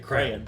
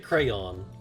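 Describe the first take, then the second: First: The word sounds like one syllable, 'crown'. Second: The word is said with two syllables. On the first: This is how some other people say it. "They say crown, like a crown" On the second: This is the speaker's own way of saying it. "So I say crayon"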